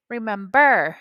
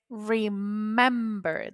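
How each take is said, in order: First: Remember stressed on its final syllable, remem-BER; stress on last syllable. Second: Remember said slowly with stress on MEM; stress on middle syllable. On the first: Teacher showing students the stress not used, remember stressed on the last syllable. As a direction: wrongly put the weight on the "ber" of remember. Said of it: "I don't say remember". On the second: Teacher showing where the stress falls, remember stressed on the middle syllable. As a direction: lean on the "mem" in remember, re-MEM-ber. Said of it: "I say remember". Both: Shown as a demonstration.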